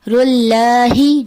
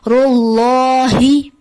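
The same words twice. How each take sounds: First: The l sound is thin and light. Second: The l sound is heavy and full. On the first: The speaker calls it wrong. "बारीक पढ़ दिया जाता है" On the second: The speaker calls it right. "मोटा पढ़ना चाहिए"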